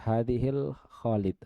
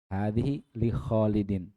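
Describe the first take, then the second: First: Said quickly with 'li' merged into 'hadhil'. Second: Said with 'li' pronounced as a separate word. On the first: The word sounds like it has the article al. The speaker calls it wrong. "dia cepat-cepat baca hadhil Khalid" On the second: The word marks that it belongs to Khalid. The speaker calls it right. "padahal li"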